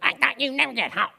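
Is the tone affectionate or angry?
angry. It is said in an annoyed, angry tone.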